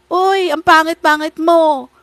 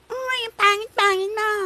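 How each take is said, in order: First: Put-on loud, high childish taunt; playground bully. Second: Very high, squeaky parroting voice; mocking copycat child. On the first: Kid teasing another on the playground, loud childish jeering. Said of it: "Di ba yung mga bata sa playground". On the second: Mocking someone who copies an accent, high childish mimicry. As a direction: mimic it back like a bratty kid. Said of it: "Parang ganon. That's what you're doing when you're trying to copy".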